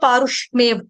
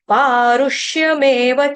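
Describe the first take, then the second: First: The 'y' sound after 'sh' is left out. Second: The 'y' sound after 'sh' is clearly said. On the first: The speaker calls it wrong. "गलती से कई बार यहाँ पे पारुष्मेव, पारुष्मेव नहीं होगा" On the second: The speaker calls it right. "श कौन सा, षटकोण का, उसके साथ य"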